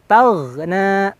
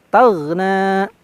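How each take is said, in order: The two takes are said the same way.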